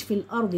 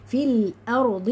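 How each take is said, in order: First: "في الأرض" quick and casual, unstretched; wrong clipped form. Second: "في الأرض" slow, with a full heavy r and d; correct recited form. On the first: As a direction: rush "في الأرض" as the mistake. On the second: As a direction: stretch "في الأرض" as a careful model. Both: Shown as a demonstration. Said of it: "مش".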